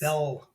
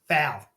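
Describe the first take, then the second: First: The vowel sounds like the one in 'fell'. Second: The vowel sounds like the one in 'pal'. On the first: The speaker calls it wrong. "You're saying Falcons" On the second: The speaker calls it right. "Fal. Not fell"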